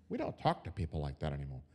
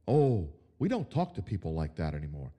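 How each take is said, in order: First: Much lower and softer mock-prim tone; mock whisper-soft parody; mocking prissy voice. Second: Mock prim, lower, precious tone; mocking prissy voice. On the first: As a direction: sneer at soft talk in a hushed, precious voice. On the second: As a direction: parody a too-polite coach. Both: Mocking soft-coach attitude.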